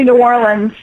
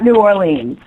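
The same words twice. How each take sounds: First: The city name is pronounced the local way. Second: The city name is pronounced a non-local way. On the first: The speaker calls it right. "We say New Orleans" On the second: The speaker calls it wrong. "not New Orleans"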